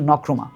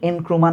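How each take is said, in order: First: The name begins directly with the n sound. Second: The name begins with a vowel before n. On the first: The speaker calls it right. "উচ্চারণ হচ্ছে নক্রুমা" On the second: The speaker calls it wrong. "এই এনক্রুমা না"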